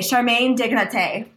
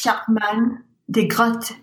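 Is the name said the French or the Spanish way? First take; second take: Spanish; French. First: The name is said with Spanish pronunciation. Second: The name is said with French pronunciation. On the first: "Let's just go with Spanish" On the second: "What would the French pronunciation be? ... That's my best try"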